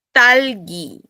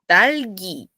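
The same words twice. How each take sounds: First: Talgi said with a tight, unaspirated, tense t and raised pitch; tense ttalgi, strawberry; tense Korean t. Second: Talgi said with a breathy, aspirated t; aspirated Talgi, the other word. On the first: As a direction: clip the t in talgi hard and tense, no puff of air. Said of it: "una palabra en coreano que es fresa". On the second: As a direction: let air burst after the t in Talgi. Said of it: "con T aspirada". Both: Shown as a demonstration.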